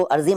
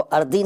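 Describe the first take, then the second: First: Said in the usual way. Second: अर्दी with d replacing z. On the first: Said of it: "उसको अर्दी नहीं कहते". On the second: Shown as a demonstration. Teacher showing the rejected form, अर्दी with d for z. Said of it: "नहीं कहते".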